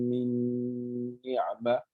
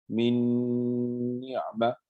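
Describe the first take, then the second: The two takes are said the same way.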